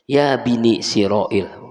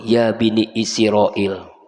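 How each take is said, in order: First: The phrase is said as 'Ya Bini Siroil'. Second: The phrase is said as 'Ya Bani Israel'. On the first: The speaker calls it wrong. "dia mah dengernya gimana? Karena ngaji ngantuk gitu" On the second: The speaker calls it right. "ayat yang dibaca ya Bani Israel"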